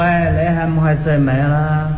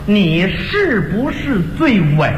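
First: It is said in Cantonese. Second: It is said in standard Mandarin.

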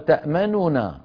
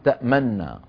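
First: The two n sounds are pronounced separately. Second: The two n sounds merge into one doubled n. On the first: "هذه أصلها تأمننا" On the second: "سكنت ثم أدغمت فصارت تأمننا"

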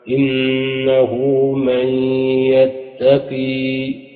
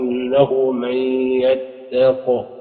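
First: The last word ends with a long vowel. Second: The last word ends on a bare consonant. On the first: One reader keeps the final letter when pausing. "قنبلا إذا وقف قال" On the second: This is how most readers pause on the word. "الناس سيقف يقولوا إنه من يتق"

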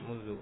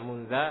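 First: The word ends with a u vowel. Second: The word ends with an a vowel. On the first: The speaker calls it right. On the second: The speaker calls it wrong.

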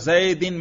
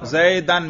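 First: The ending is pronounced with an i vowel. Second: The ending is pronounced with an a vowel. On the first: The word is in the genitive case. "جر پڑھا" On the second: The word is in the accusative case. "نصب"

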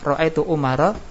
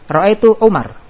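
First: The last word ends with an added a vowel. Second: The last word ends on a bare r sound. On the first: This is the form used when reading on without stopping. "Kalau enggak diwaqaf bacaannya" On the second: This is the form used when stopping at the word. "Jadi kalau dibaca waqaf, waqaf itu huruf terakhir enggak dibaca ya"

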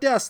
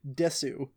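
First: The word ends without a final vowel. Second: The word ends with a clear final vowel. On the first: "Not des" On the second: "they always pronounce it desu"

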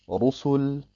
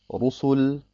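The two takes are said the same way.

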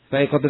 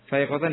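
First: The word ends with the vowel sound -un. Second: The word ends with the vowel sound -an. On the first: The word is the predicate of an omitted subject. "Khabar dari mutariyah mahdhuf" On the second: The word describes the state of the subject. "Yang pertama sebagai hal"

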